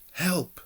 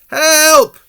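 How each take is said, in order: First: It is said quietly. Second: It is said very loudly.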